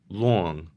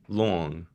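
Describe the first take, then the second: The two takes are said the same way.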